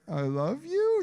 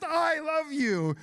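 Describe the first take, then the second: First: The voice rises at the end like a question. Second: The voice falls at the end like a statement.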